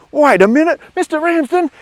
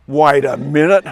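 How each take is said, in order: First: Very high, loud shriek of disbelief; acted kid exploding in high-pitched astonishment; outraged realisation. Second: Loud, drawn-out outcry of disbelief; acted loud, incredulous protest; dawning realisation. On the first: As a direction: escalate to a squealing shout at the teacher. Kid's outburst builds on realising. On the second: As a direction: call it out as it starts to dawn on you. Kid realises he was fooled.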